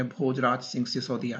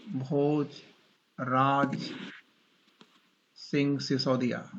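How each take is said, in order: First: Said in the usual way. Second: Very slow, word by word with long pauses; slow dictation. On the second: Real, not acted. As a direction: draw out Bhojraj, pause, then Singh Sisodia, for note-takers. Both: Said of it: "मैं धीरे धीरे बोल रहा हूँ".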